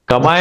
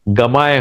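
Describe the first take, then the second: First: The word begins with a voiceless k sound. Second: The word begins with a voiced g sound. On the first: The word stands on its own. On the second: Another word comes before it.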